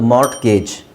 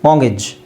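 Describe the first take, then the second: First: The t is sounded, ending in 'gayj'. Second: The t is dropped, ending in 'gij'. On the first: The speaker calls it wrong. "Phonics ಪ್ರಕಾರ ಓದೋದಾದರೆ" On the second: The speaker calls it right. "Silent ಟಿ"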